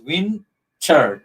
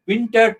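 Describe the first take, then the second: First: WINTER drawn out as WIN, TER; slow syllable-by-syllable WIN-TER; broken into syllables. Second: Said in the usual way. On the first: Shown as a demonstration. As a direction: split WINTER into two separate beats. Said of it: "two syllable". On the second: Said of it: "two syllables".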